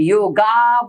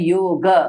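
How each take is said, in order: First: The word ends in a long 'aa' vowel. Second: The word ends in a short, light 'a' vowel. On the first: The speaker calls it wrong. "आकार में एंड हो जाएगा" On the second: The speaker calls it right. "सही जो उच्चारण है इसका होता है योग"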